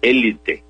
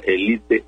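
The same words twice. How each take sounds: First: Élite said É-li-te, stress on the first syllable; élite as an esdrújula, weight on the é. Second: Élite said e-LI-te, stress on the middle; élite as a llana word, e-LI-te; élite without accent. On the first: Recommending the form to Leo, élite stressed on the first syllable. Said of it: "recomienda la forma esdrújula". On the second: Explaining the other accepted form to Leo, élite as e-LI-te. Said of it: "para que diga élite". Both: Shown as a demonstration.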